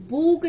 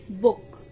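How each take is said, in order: First: बुक with a long, stretched ऊ like बूक; wrong long vowel. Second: बुक with a short clipped ु; short vowel. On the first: Teacher showing students the wrong बुक, long ऊ. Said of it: "अब इसे हम बुक नहीं पढ़ते". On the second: Teacher giving students the correct बुक, short ऊ. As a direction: say बुक with the quick short u sound. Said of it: "छोटा ऊ आ रहा है". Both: Shown as a demonstration.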